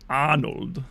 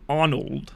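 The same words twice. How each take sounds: First: The name is said with heavily exaggerated articulation. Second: The name is said plainly, without exaggeration.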